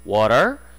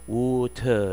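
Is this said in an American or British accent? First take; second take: American; British. First: It is said in an American accent. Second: It is said in a British accent. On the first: "미국식으로" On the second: "영국식 영어에서는 물이란 단어를 진짜 너무 명확하게"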